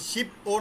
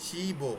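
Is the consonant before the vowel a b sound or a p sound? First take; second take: p sound; b sound. First: It has a p sound before a separate o. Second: It has a b sound linked into o. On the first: The speaker calls it wrong. "শিপ ও না কিন্তু" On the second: The speaker calls it right.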